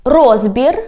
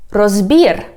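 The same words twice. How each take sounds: First: "Розбір" stressed on РОЗ, rising end; stress on first syllable. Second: "розбір" stressed on БІР, falling; stress on last syllable. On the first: Teacher giving the first variant, "Розбір" stressed on РОЗ. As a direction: hit the start of "Розбір". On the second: Teacher giving the second variant, "розбір" stressed on БІР. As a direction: hit the end of "розбір". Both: Shown as a demonstration. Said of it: "when we change the stress".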